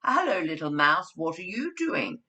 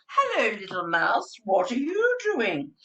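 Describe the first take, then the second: First: Said in the usual way. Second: Big bear voice. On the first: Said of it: "Look at that". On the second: Shown as a demonstration. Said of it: "I bought the actual".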